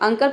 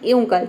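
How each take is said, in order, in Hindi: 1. यह शब्द छोटे, साधारण 'uh' स्वर से शुरू होता है। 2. यह शब्द फिसलती हुई 'yu' ध्वनि से शुरू होता है। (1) "अ का साउंड देना है" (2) "यू का साउंड देना है"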